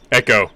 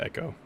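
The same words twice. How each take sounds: First: The word is said loudly and clearly. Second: The word is said softly and quietly. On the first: The device activates. "I have to say it in like a very like pronounced voice" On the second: The device does not respond. "I'm trying to like say it in a soft tone"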